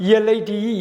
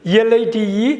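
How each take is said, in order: Both takes have the same delivery.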